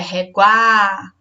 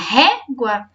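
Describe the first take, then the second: First: The stress is on a later syllable. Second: The stress is on the first syllable. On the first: The speaker calls it wrong. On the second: The speaker calls it right.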